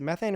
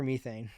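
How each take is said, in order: First: "methane" with a short e, as in "METH-ayn"; short-e pronunciation. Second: "methane" with a long e, as in "MEE-thayn"; long-e pronunciation. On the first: Guest asking which pronunciation is right, short-e "methane". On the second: Guest offering the other pronunciation, long-e "methane". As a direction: say "methane" starting like "me". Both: Shown as a demonstration. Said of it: "is it methane or methane".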